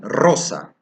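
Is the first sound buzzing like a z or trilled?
trilled. The first sound is a strong trilled R. This is the standard Spanish pronunciation. "in Spanish we say rosa"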